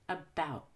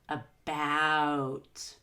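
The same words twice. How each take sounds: First: The vowel glide is small, relaxed and light. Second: The vowel glide is big, deep and effortful. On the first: The speaker calls it right. "start from the short E and end with the short back U" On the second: The speaker calls it wrong. "I'm not going to say about. That's too much"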